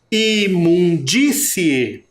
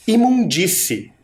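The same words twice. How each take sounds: First: Imundície very slowly, stressing DÍ; syllables drawn out. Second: Said in the usual way. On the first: Shown as a demonstration. Teacher showing the stronger sound, Imundície drawn out with stress on DÍ. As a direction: stretch each syllable of Imundície and punch the DÍ. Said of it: "Não é um som mais forte". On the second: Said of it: "Observem aqui nessa última palavrinha".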